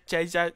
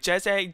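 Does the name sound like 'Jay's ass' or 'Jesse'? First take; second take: Jay's ass; Jesse. First: The name is said as two words, 'Jay's ass'. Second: The name is said in its usual form. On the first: The speaker calls it wrong. "she pronounced everything like wrong" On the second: The speaker calls it right. "She called my friend Jesse the same thing"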